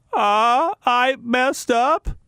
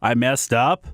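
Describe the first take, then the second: First: Higher, slow, lightly voiced mock admission; a hint of the coach owning up; mock coach confession, slow and high; Bruce Weber impression. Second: Said in the usual way. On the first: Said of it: "That's my attempted impression of, uh, Bruce Weber". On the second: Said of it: "Can he just come out and just say".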